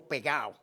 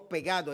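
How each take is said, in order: First: "pegao" with the d dropped, Puerto Rican style; Puerto Rican pronunciation. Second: Said in the usual way. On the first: Shown as a demonstration. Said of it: "con acento". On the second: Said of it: "No decimos pegado".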